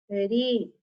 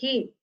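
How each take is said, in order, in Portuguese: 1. O som do R é fraco e leve. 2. O som do R é forte e áspero.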